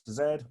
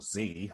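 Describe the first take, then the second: First: The letter is said as zed. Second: The letter is said as zee, American style.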